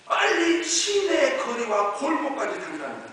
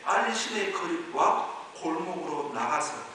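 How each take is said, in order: First: 빨리 drawn out, high and loud; slow, raised-voice stress from 빨리 through 골목까지; urgent emphasis. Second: Said in the usual way. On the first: Shown as a demonstration. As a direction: hammer out 빨리 as an urgent order. Verse repeated with urgent emphasis.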